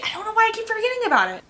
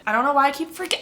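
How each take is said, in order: First: Much higher and fast, exasperated at herself; exasperated squeal. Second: Said in the usual way. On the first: Real, not acted. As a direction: blurt it out high and quick, fed up. Restarts the same sentence exasperated.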